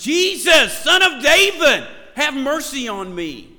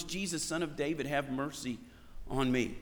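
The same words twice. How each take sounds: First: Bellowed cry for mercy, much higher and louder; top-of-the-lungs shout. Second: Said in the usual way. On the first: Acted. Blind man shouting to Jesus as he passes by, at the top of his lungs. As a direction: yell it out loud to be heard over a crowd. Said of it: "and he shouts, top of his lungs". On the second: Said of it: "he still shouts at the top of his lungs".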